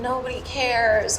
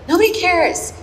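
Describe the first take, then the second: First: It is said in a sad, dejected tone. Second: It is said in a happy, relieved tone.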